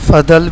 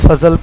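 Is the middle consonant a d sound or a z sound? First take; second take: d sound; z sound. First: The middle consonant is a d sound. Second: The middle consonant is a z sound. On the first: This is how Arabs say it. "फ़दल भी अरबी में कहेंगे" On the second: This is how it is said locally. "हम उसको फ़ज़ल पढ़ते हैं"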